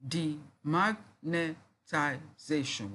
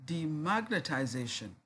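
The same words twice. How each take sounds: First: "Demagnetization" very slowly, a gap after each syllable. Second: Said in the usual way. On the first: Shown as a demonstration. Teacher recounting six syllables, syllable by syllable. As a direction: break "Demagnetization" into separate beats. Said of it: "We identified six syllables". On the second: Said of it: "break the words listed below into syllables".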